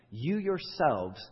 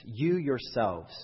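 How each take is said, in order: First: "You yourselves" slow, "You" lifted higher and pressed; stress on YOU, higher. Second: "You yourselves" slow, leaning hard on "You"; stress on YOU. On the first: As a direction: lift "You" up high and hold "You yourselves" slowly. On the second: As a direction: drag out "You yourselves", pressing on "You". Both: Shown as a demonstration. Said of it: "is the emphatic word of the sentence".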